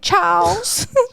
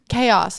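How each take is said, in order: First: It is said as one syllable rhyming with 'cows'. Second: It is said as two syllables, 'kay-oss'. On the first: "I pronounced it chows" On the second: "And it's chaos"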